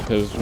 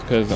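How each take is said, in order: Both takes have the same delivery.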